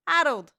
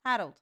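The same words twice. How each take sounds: First: "Harold" called out loud like a big reveal. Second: Said in the usual way. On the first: Real, not acted. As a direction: belt the name out, higher. Dramatic reveal of the name.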